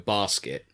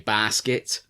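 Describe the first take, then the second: First: The first vowel is short. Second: The first vowel is drawn out long.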